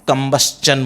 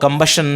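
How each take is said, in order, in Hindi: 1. अंत की ध्वनि 'chun' ध्वनि की तरह बोली जाती है। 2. अंत की ध्वनि साफ़ 'shun' ध्वनि की तरह बोली जाती है। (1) "कंबस्चन बोलना है" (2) "कंबस्शन नहीं बोलना है"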